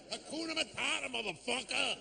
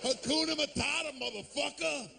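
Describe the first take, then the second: First: Higher and softer, smug mock voice; guy on the street. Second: Higher, tossed-off street voice; guy on the street. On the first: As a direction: drop it as the smug final word. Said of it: "Nah, man". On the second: Retold or imitated. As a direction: toss it off like a tough guy quoting Disney.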